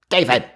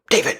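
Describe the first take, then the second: First: It is said in a very deep voice. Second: It is said in a higher-pitched voice. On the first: An older man is saying it. "Grandpa was a much lower, like a David" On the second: A mother is saying it. "she'd be like"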